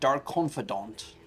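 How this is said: The name is pronounced in a posh, fancy way.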